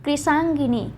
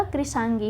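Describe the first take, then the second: First: कृशांगिनी with an added ni; the mistaken ni closing कृशांगिनी; wrong form कृशांगिनी. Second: कृशांगी with no final ni; correct form कृशांगी. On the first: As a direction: say कृशांगिनी ending gi-ni. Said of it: "कृशांगिनी नहीं होता है". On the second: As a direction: say कृशांगी ending in gee. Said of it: "कृशांगी होता है". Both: Shown as a demonstration.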